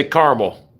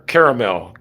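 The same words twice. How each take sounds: First: Caramel as KAR-mel, two syllables. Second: Caramel as KARE-uh-mel, three syllables. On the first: Showing viewers his own way, two-syllable caramel. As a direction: squeeze caramel into KAR-mul. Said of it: "Two syllables". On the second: Asking viewers how they say it, three-syllable caramel. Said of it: "I say caramel". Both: Shown as a demonstration.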